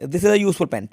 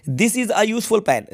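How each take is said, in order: First: Said in the usual way. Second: Reads "This is a useful pen" very slowly, every word separate; slow model reading. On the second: Shown as a demonstration. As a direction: dictate it slowly to the children. (धीरे-धीरे, हर शब्द अलग बोलते हुए) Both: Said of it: "इसके पहले लगेगा ए".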